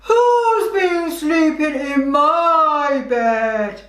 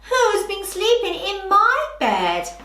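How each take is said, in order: First: It is said in a very low, growling voice. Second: It is said in a middle-pitched voice. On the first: A big bear is speaking. "who was a big bear and had a very low voice, growled" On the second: A medium-sized bear is speaking. "with a middle, middle sounding voice"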